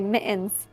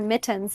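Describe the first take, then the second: First: The middle t is a glottal stop. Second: The middle t is a clear t sound. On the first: This is how people from Michigan say it. "they say mittens" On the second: This is how the speaker says it. "I said the word mittens"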